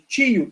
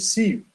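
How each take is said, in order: First: The syllable starts with a t sound. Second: The syllable starts with an s sound. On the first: The speaker calls it wrong. "ao invés de tio" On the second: The speaker calls it right. "tem som de cio"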